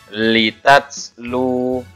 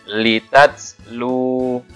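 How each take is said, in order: The two takes are said the same way.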